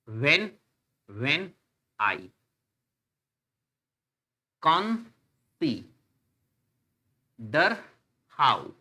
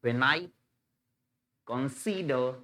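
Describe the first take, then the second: First: "when I con-si-der how" very slow, a long pause after each syllable. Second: "when I consider" in rising and falling pairs, "when I" lifting, "consider" dropping; zigzag stress. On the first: Teacher counting syllables for students, "when I consider how" broken syllable by syllable. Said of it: "एक syllable, एक syllable". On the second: Teacher demonstrating zigzag sound, "when I consider" in iambic stress. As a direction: lean on "I" and the "si" of "consider". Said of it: "ये zigzag sound बोला जाता है". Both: Shown as a demonstration.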